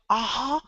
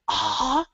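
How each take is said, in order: The two takes are said the same way.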